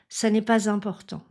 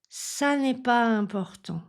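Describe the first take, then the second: First: A z sound links pas to important. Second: Pas runs into important with no z sound. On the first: "avec la liaison" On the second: "je ne fais pas la liaison"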